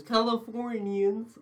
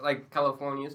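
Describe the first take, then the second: First: High, drawn-out Californian accent; mock Californian accent. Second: Said in the usual way. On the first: Shown as a demonstration. Friend showing the only accent he has, mock Californian. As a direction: stretch it slowly into a Californian lilt. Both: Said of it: "that's all I can do".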